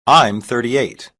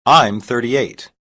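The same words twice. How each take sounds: The two takes are said the same way.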